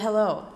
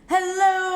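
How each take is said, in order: First: It sounds like a natural speaking voice. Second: It sounds like a game show host. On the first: The speaker calls it right. "there we go. That's better" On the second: The speaker calls it wrong. "why do I always sound like I'm a sports announcer or some like game show host"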